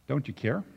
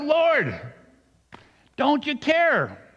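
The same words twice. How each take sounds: First: Soft, questioning rise at the end; subdued plea. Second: High, drawn-out cry to the Lord; shouted plea. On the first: Retold or imitated. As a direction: ask it quietly, no shouting. Same plea, quietly repeated after shout. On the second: A narrator's reading. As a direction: yell it slowly up at a sleeping master. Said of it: "They shouted".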